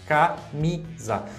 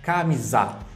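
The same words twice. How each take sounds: First: The stress is on the middle syllable. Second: The stress is on the last syllable. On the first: The speaker calls it right. "a sílaba tônica está na, na mi" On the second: The speaker calls it wrong. "eu estou colocando a sílaba tônica no ZA"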